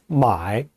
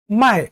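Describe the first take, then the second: First: The syllable is said in the third tone. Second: The syllable is said in the fourth tone. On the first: It means to buy. "买 제삼성으로 발음합니다" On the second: It means to sell. "제사성으로 卖라고 합니다"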